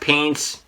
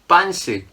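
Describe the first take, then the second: First: The word is said in an English-like way. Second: The word is said in a Korean-like way. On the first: It means trousers. "not paints" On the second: It means underpants. "when Koreans pronounce it differently"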